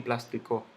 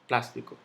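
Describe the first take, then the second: First: The stress falls after the first syllable. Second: The stress falls on the first syllable. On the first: The speaker calls it wrong. "yo no digo plástico" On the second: The speaker calls it right.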